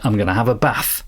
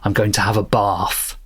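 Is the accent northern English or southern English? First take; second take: northern English; southern English. First: It is said in a northern English accent. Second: It is said in a southern English accent.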